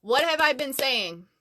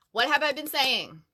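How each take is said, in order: Both takes have the same delivery.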